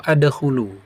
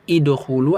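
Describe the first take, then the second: First: The word begins with the vowel a. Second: The word begins with the vowel i.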